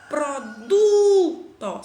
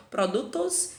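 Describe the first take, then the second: First: "Produto" with a long, loud, high DU; stressed middle syllable. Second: Said in the usual way. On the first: Shown as a demonstration. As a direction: belt out and hold the DU in "Produto". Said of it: "são paroxítonas". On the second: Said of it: "porque eles não são paroxítonos".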